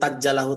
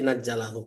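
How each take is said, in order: First: The word begins with a t sound. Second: The word begins with an n sound. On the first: The speaker calls it wrong. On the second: The speaker calls it right.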